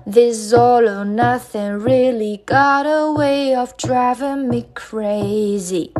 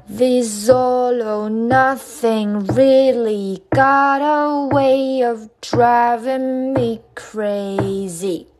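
First: Sung line at song tempo; normal-speed singing. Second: Very drawn-out sung line; slow singing. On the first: Teacher introducing the second line, singing at song tempo. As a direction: sing it flowing, with a held last word. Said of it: "好，第二句". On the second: Teacher breaking down how it's sung, very slow singing. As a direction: sing each linked word slowly and sustained. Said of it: "好，怎么唱呢". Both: Shown as a demonstration.

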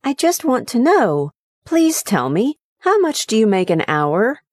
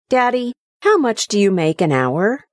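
First: Put-on high, earnest childlike pleading; little boy pleading. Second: Put-on higher, curious childlike question; boy quizzing his dad about pay, childlike; young son's voice. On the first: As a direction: son pleading with his father, childlike. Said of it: "pleaded the little boy". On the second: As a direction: ask it like a small innocent boy. Son asks father's wage.

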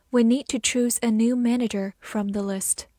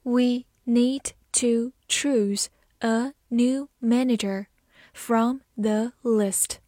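First: Said in the usual way. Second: Word by word, with clear gaps; very slow model sentence for learners; slow reading. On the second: Shown as a demonstration. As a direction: take it slowly, separating each word. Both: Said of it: "慢慢来读".

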